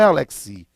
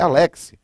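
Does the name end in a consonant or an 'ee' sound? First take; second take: ee sound; consonant. First: The name ends with an added 'ee' vowel. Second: The name ends on the 'x' consonant. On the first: The speaker calls it wrong. "não é Alexi" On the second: The speaker calls it right. "é Alex"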